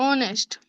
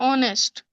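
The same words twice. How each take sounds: Both takes have the same delivery.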